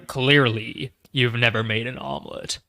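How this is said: It is said in a put-on Ultron voice.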